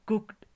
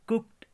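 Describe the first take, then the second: The two takes are said the same way.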